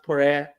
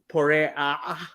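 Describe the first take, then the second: First: No guttural ayin sound is heard at the end. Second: A guttural ayin sound is heard at the end. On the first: The speaker calls it wrong. "not porea" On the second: The speaker calls it right. "if you're going to say the ayin, it's porea"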